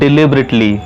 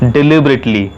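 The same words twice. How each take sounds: First: The first syllable is said like 'dih'. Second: The same.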